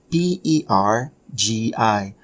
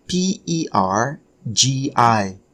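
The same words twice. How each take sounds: The two takes are said the same way.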